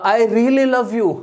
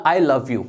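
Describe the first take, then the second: First: Really stretched out slowly; stress on really. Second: Said in the usual way. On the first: Shown as a demonstration. Teacher showing students a heartfelt proposal, really stressed. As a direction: lean hard on really, slow and earnest. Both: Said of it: "आपको बोलना पड़ेगा".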